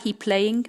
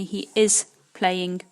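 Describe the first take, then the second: First: Said in the usual way. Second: He is playing, slow and deliberate; slow model. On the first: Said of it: "c'est pas he playing". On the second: Shown as a demonstration. Teacher giving the correct form he is playing, slowly. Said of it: "mais he is playing".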